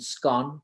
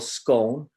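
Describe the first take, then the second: First: The word is said the Scottish way, differently. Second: The word is said the speaker's own English way. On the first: "Rab from Scotland, would say it's pronounced differently, as in scone" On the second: "some of us would call scone"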